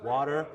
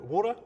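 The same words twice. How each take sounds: First: The word is said in an American accent. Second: The word is said in a non-American accent. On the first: "say it like American" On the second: "Is that how you say it?"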